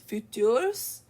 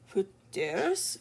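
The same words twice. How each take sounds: First: FUTURS shorter, firmer, still rising; second pronunciation attempt. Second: FUTURS as a rising, unsure question; tentative pronunciation. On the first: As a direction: try FUTURS with a firmer opening consonant, as a question. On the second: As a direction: sound out FUTURS with a breathy H-like start, rising. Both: Shown as a demonstration. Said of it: "your J is pronounced like an H".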